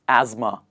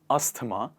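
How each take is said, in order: First: It is said without a 'th' sound. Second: It is said with a 'th' sound. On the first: The speaker calls it right. "We do not pronounce the T H sound here. We pronounce it like this" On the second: The speaker calls it wrong. "not asthma"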